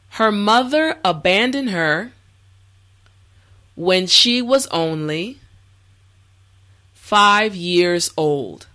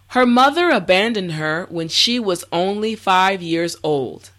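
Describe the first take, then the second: First: The sentence is spoken slowly and carefully. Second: The sentence is spoken at a natural speed. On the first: "this time repeat after me" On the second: "this time we will go at a more natural pace"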